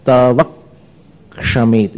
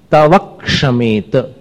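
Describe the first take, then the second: First: तवक्षमेत drawn out even slower, क्ष held; repeated slow stress demo; swaraghat repeat. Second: तवक्षमेत said very slowly with the stress on क्ष; slow stress demo; swaraghat. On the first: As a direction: stretch तवक्षमेत with weight on क्ष. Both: Shown as a demonstration. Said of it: "ये स्वराघात कहलाता है".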